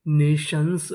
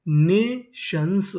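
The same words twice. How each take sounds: First: Said in the usual way. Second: Nations very slow as ने, शंस; syllable by syllable. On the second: Shown as a demonstration. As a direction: sound out Nations in two parts. Teacher sounding out new word.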